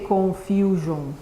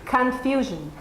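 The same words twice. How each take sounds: First: The first vowel is a full 'o' sound. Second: The first vowel is a weak 'uh' sound. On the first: The speaker calls it wrong. "you don't say confusion, never" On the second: The speaker calls it right. "The sound is uh"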